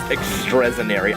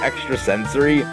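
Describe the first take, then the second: First: The word drops the 's' and says 'senary'. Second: The word has the full middle 'sens' part. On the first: The speaker calls it wrong. "we used to think ... was pronounced extrasenary" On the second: The speaker calls it right. "the word extrasensory"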